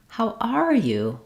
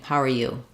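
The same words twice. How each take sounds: First: It is said high, with a lengthened "are". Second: It is said flatly with little emotion. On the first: "Even higher pitch and more length on the stress word are" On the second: "Not a, not a lot of emotion there"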